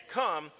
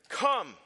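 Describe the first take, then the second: First: Lighter booming call; booming thunder voice. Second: Loud, high booming call; booming thunder voice. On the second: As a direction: boom it out like thunder. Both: Shown as a demonstration. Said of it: "That's my thunder voice".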